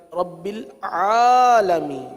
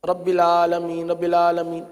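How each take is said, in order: First: "العالمین" with a full throat ain, stretched long; slow down and dwell on the ain of "العالمین"; correct ain. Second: "العالمین" run on quickly with a plain aa, low and level; ain read as hamza. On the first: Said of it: "عین کی ادائیگی بھی درست ہونی چاہیے". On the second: Teacher imitating careless readers, "العالمین" with hamza for ain. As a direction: glide through "العالمین" with no throat ain. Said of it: "عین کو حمزہ پڑھ دیتے ہیں". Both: Shown as a demonstration.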